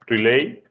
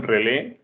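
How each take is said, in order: First: "relay" dicho en inglés, alargado, como "rilei"; pronunciación inglesa. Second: "relé" con acento en la última E; acento en la E final. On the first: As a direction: di "relay" a la inglesa, terminado en diptongo "ei". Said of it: "es el nombre en inglés". ("relay" como nombre inglés, despacio: "ri-lei") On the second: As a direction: carga la voz en la é final de "relé". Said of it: "con acento en la E". ("relé", palabra aguda a la española, acentuada al final) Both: Shown as a demonstration.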